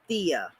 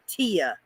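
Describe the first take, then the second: First: It begins with a th sound. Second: It begins with a plain t sound. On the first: This is the way Mexicans say it. The speaker calls it right. "they say tia with a th sound" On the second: This is the way it is taught in school. The speaker calls it wrong. "in school, they teach you to say tia"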